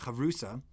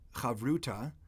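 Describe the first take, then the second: First: The last consonant is an s sound. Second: The last consonant is a t sound.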